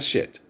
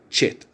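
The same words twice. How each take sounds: First: The word is said with a plain American accent. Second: The word is said with a Spanish accent. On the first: The speaker calls it wrong. "not shit" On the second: The speaker calls it right. "Okay, Spanish accent"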